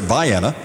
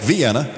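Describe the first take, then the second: First: The name is said as people in the area say it. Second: The name is said as it is usually said. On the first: This is how the town's own residents say it. "but it's pronounced here Vienna" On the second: This is the familiar name of the European city. "It's spelled like Vienna"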